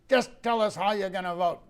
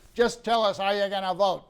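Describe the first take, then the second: First: It is said in a gruff voice. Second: It is said in a plain voice.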